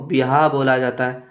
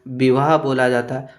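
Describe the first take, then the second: No difference in how they are said.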